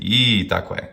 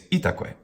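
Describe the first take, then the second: First: The first syllable is drawn out long. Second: All three syllables are short and even. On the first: The speaker calls it wrong. "if we do it incorrectly by saying itaque. That's wrong" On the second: The speaker calls it right. "It's itaque"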